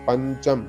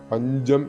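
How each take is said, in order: First: The consonant after the nasal is unvoiced 'ch'. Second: The consonant after the nasal is voiced 'j'. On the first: The speaker calls it right. "പഞ്ചം എന്ന് തന്നെ വരണം" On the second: The speaker calls it wrong. "പഞ്ചം എന്ന് ഉച്ചരിക്കരുത്"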